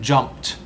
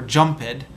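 First: The ending is a plain T sound. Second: The ending is an extra syllable, like id. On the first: The speaker calls it right. "you say walked and jumped" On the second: The speaker calls it wrong. "So you don't say walk-id or jump-id"

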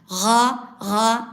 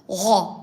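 First: The sound is thin, not filling the mouth. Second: The sound is thick, filling the mouth. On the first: The speaker calls it wrong. "Yani şöyle değil. Ga değil" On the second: The speaker calls it right. "Tam kalının ağzın içinde dağılması gerekir"

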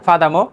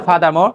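Both takes have the same delivery.

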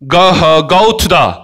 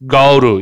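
First: Each word is pronounced fully and separately. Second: The words run together fast into a reduced form. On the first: "이렇게 해도 되고요" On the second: "얘를 빨리 발음하면 얘가 go로"

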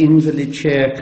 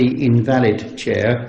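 First: The stress is on the first syllable. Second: The stress is on the second syllable. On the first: "I would say the invalid chair" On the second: The chair is no longer usable. "could be now pronounced as the invalid chair, because nobody would be able to sit on that"

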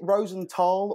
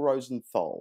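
First: The last syllable is said with a plain t. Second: The last syllable is said with a th sound. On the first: The speaker calls it right. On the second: The speaker calls it wrong.

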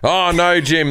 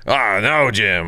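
First: It is said in the speaker's ordinary voice. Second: It is said in a put-on character voice.

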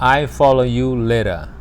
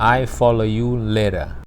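No difference in how they are said.

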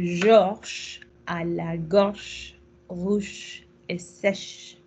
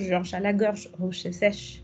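First: It is said at a normal, careful pace. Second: It is said very quickly.

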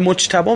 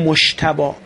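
First: The middle consonant is a j sound. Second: The middle consonant is an sh sound. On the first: "به جای ج ش تلفظ میکنه" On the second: "ما غالبا میگیم مشتبا"

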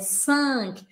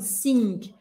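First: The vowel sounds almost like a smiling a. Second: The vowel is a separate, clear i sound. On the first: The speaker calls it right. "É 5. Quase com A" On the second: The speaker calls it wrong. "Eu não posso falar o I separado. Eu não posso falar assim"

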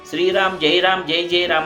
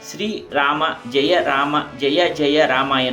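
First: Final vowels are dropped and syllables are shortened. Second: Every syllable, including final vowels, is fully pronounced. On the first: Only ten syllables of the mantra are recited. The speaker calls it wrong. "ಕೆಲವರು ... ಅನ್ನುತ್ತಾರೆ. ಆಗ ನಾವು 10 ಅಕ್ಷರಗಳನ್ನು ಮಾತ್ರ ಉಚ್ಚರಿಸಿದಂತಾಗುತ್ತದೆ" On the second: All thirteen syllables of the mantra are recited. The speaker calls it right. "ಸ್ಪಷ್ಟವಾಗಿ ಉಚ್ಚರಿಸಬೇಕು"

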